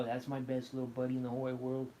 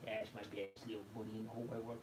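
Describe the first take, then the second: First: Said in the usual way. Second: Soft cooing to the cat. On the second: Real, not acted. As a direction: coo it gently into the fur. Cuddling the cat.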